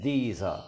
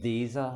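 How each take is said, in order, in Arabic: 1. كلمة 'are' خفيفة وبالكاد تُسمع. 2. كلمة 'are' خفيفة وبالكاد تُسمع.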